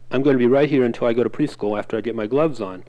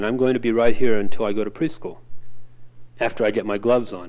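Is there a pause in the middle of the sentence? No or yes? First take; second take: No; Yes. First: It is read as one unit without pausing. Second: It has a pause splitting the two time phrases. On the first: The two time phrases run together confusingly. The speaker calls it wrong. "if you read that as a single unit" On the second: The two time phrases are understood separately. The speaker calls it right. "it makes pretty good sense when you put the pause in"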